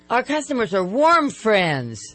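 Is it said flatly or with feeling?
with feeling. It is said warmly, with more feeling.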